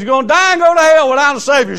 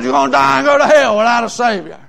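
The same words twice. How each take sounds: First: Loud, high, fast hellfire warning; raised preacher's voice, rushing and emphatic; urgent preaching. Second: Imitating a woman parroting the preacher; higher-pitched echo of the preacher's cry; copycat echo. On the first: Retold or imitated. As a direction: hurl the warning out quickly. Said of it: "I said". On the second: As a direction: mimic the hellfire warning, pitched up. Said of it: "everything I'd say, she'd copy me".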